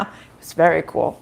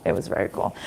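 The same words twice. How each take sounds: First: Said in the usual way. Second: Whispered under her breath; half-whispered repeat to herself; whispered aside. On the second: Real, not acted. Repeats phrase softly to herself.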